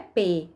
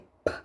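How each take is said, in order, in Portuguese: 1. O P é pronunciado com uma vogal em seguida. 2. O P é dito como um som surdo, sem vogal. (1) "não é P" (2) "é P, certo? Porque é, é um, um som surdo"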